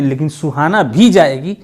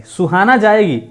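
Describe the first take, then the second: First: "भी" पर ज़ोर देकर बोलें; सुहाना भी जाएगी — "भी" को दबाकर कहो; stress on भी. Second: Said in the usual way. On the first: Shown as a demonstration. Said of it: "ये क्लियर है". ("भी" शब्द पर ज़ोर, बाकी सामान्य) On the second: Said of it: "कोई निपात नहीं है".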